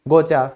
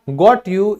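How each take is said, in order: First: The words are blended into one, gotcha. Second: Both words are said fully and separately.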